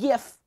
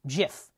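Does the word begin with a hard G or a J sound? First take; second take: hard G; J sound. First: The word begins with a hard G sound. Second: The word begins with a J sound. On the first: The speaker calls it wrong. "not GIF" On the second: The speaker calls it right. "the word is pronounced GIF"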